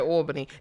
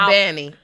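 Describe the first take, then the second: First: It is pronounced the New York way. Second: It is pronounced the local Georgia way. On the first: This is how it is said where the speaker grew up. "They don't say it like that though" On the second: This is how locals say it. "They say"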